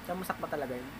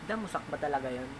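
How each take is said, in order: Both takes have the same delivery.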